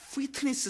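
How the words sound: It is said with a rolled, English-like pronunciation.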